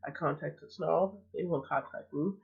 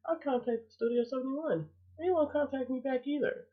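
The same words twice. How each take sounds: First: Said in the usual way. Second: High, exasperated complaint. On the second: Real, not acted. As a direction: voice climbs in disbelief. Repeats complaint, higher second take.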